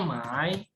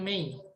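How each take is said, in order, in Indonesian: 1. Vokalnya terdengar seperti 'ai'. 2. Vokalnya terdengar seperti 'ei'. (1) "tapi bacanya Mai" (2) "bukan Mei"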